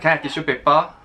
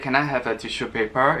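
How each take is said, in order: First: It is said in a sharp Singaporean English accent. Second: It is said in a standard, neutral English accent. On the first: "it's very sharp. ... the intonation's a bit weird" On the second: "normally you say"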